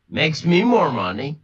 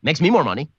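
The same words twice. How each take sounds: First: Drawn out slowly, rising at the end. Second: Said in the usual way. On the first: Shown as a demonstration. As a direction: stretch Makes me more money slowly, lift money. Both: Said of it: "I'm fine with it".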